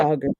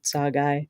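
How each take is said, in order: First: The word ends with a 'ger' sound. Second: The word ends with a 'guy' sound. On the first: This is how the speaker usually says it. "I always say" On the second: This is supposedly the proper way to say it. "I guess is how you say it"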